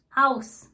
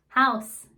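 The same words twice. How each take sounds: First: Haus said the German way, a crisp ow and sharp s; Haus, German style, crisp ending. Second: House said the English way with a z-less s. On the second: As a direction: house in plain American English. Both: Shown as a demonstration. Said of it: "For instance".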